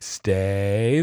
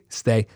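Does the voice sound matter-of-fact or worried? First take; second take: worried; matter-of-fact. First: The pitch dips and the voice sounds anxious. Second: The pitch stays level and the voice sounds firm. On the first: The speaker is unsure the dog will obey. The speaker calls it wrong. "The world might end if he doesn't stay. ... that's what it just sounds like" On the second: The speaker is confident and means it. The speaker calls it right. "Be matter of fact. ... That's how you just mean it"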